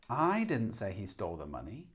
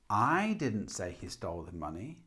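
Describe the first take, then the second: First: The stress falls on the word I. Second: The stress falls on the word I.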